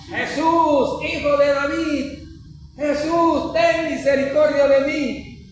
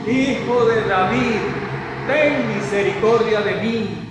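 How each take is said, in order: First: High, slow pleading call, much higher in pitch; retold loud cry. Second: Mild retold cry. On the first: Blind man calling after Jesus through the crowd, high pleading cry. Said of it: "con más fuerza el hombre gritaba". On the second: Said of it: "Y comenzó a gritar".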